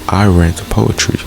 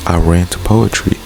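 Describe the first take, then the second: No difference in how they are said.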